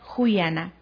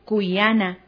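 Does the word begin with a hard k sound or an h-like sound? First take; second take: h-like sound; k sound. First: The word begins with a breathy h-like sound. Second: The word begins with a hard k sound. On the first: This is the northern form. "En la zona norte del país se pronuncia juyana" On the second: This is the central highland form. "en la zona sierra centro del país se pronuncia cuyana"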